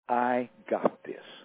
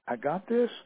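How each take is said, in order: First: It is said in a bold, forceful voice. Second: It is said in a timid, hesitant voice. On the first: The speaker really means it. The speaker calls it right. "she said really boldly" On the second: The speaker is unsure she can do it. The speaker calls it wrong. "kind of in a timid, hesitant voice"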